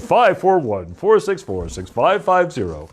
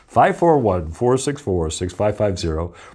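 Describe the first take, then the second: First: It is said in a car salesman voice. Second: It is said in a plain, ordinary voice.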